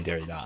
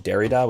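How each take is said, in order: First: Derrida said the French way, stress on the last syllable; French-style Derrida, weight on the final syllable. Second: Derrida with the first syllable stressed, as English speakers say it; English-style Derrida, stress on the first syllable. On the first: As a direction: say Derrida as a French speaker would. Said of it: "the French-speaking scholars I know say Derrida". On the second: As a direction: put the weight on DER in Derrida. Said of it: "pronounce it Derrida with the emphasis on the first syllable". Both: Shown as a demonstration.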